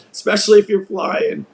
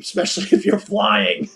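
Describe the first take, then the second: First: Said in the usual way. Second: Laughing. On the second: Real, not acted. Laughs at own joke.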